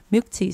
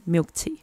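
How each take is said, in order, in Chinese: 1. 这是用英文发音。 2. 这是用英文发音。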